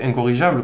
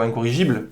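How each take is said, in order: First: Incorrigeable, ending in -jable with an open a; variant ending -able. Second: Incorrigible, ending in -jible with an i; standard ending -ible. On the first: Speaker unsure of the word, trying incorrigeable with an -able ending. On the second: Speaker correcting himself to incorrigible with an -ible ending. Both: Shown as a demonstration. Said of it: "je pense incorrigible".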